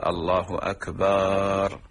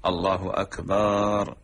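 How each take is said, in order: First: Slow call "الله أكبر" with the ba of "أكبر" drawn long, akbaar; stretched ba. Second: Slow "الله أكبر" with the ba of "أكبر" held long; stretched ba. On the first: Teacher showing the drawn-out ba error in the call. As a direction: lengthen the b in "أكبر" wrongly. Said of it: "مد الباء في أكبر". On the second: Teacher repeating the lengthened ba mistake. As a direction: draw out the b in "أكبر". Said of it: "بعضهم تجد يقول". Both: Shown as a demonstration.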